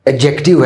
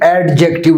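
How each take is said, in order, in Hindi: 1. d की ध्वनि मौन रहती है। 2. d की ध्वनि स्पष्ट रूप से बोली जाती है। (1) "डी साइलेंट है" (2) "एडजेक्टिव नहीं है"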